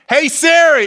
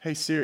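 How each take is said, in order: First: It is said in a loud, angry tone. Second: It is said in a calm, normal tone.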